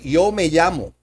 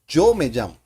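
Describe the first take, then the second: First: The phrase has an English-speaker accent. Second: The phrase has a native Spanish accent. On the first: The speaker calls it wrong. "native English speakers, when they say yo, they say yo" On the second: The speaker calls it right. "but the real sound is yo"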